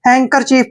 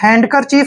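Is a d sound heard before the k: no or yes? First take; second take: no; yes. First: No d sound is pronounced before the k. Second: A d sound is pronounced before the k. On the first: The speaker calls it right. "हैंकर चीफ पढ़ना है" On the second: The speaker calls it wrong. "आपने हैंडकर चीफ नहीं पढ़ना है"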